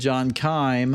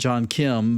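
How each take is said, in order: First: The surname is said with a long 'eye' vowel. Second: The surname is said with a short 'i' vowel. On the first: The speaker calls it right. "but John Keim" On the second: The speaker calls it wrong. "not John Kim"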